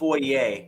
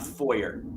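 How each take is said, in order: First: It is said with a French-style ending. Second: It is said with an English-style ending. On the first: The speaker calls it right. "since we're going to get into the French French pronunciations, um, it's called foyer" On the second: The speaker calls it wrong. "not foyer"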